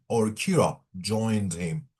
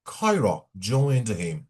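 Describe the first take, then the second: First: Kira said as KEE-ra; second take: Kira as KEE-ra, slow; Kira pronounced. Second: Kyra said as KAI-ra; first take: Kyra as KAI-ra, slow; Kyra pronounced. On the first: (کیرا تلفظ کن) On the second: (کایرا تلفظ کن) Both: Shown as a demonstration.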